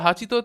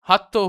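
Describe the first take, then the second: First: The middle has a full 'chi' syllable. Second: The middle has a doubled 't' sound. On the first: "হাচিতো থেকে হাত্তো হয়ে আছে" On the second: "হাচিতো থেকে হাত্তো হয়ে আছে"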